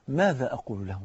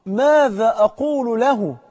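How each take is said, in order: First: Low, soft, sober question; hushed motto. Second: Loud, high, very slow retold cry; distant dying cry. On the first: Shown as a demonstration. Preacher giving his brothers the motto, hushed and low. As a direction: lower and soften it, put gravely. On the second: Burning man dreading standing before God, drawn-out far-off cry. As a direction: cry it out slowly, raised and stretched. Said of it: "فقال بصوت بقى جاي من بعيد".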